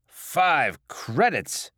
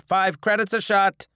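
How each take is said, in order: First: Slow, loud, outraged echo; incredulous. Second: High, loud bartender's call; announcing a price. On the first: Drinker balking at the cost of a shot, incredulous. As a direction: drag out the price in disbelief. Customer balks at the price. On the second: Bar owner naming his price to drinkers, loud and firm. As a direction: state the price loudly, no haggling. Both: Acted.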